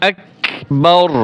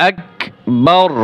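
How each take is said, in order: Both takes have the same delivery.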